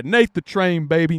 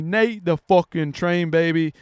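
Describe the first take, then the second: First: Said in the usual way. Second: Slower, leaning on "Nate the fucking Train"; emphatic salute. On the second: Real, not acted. Hyping up the beaten fighter, slower emphatic salute. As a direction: stretch and punch "fucking Train".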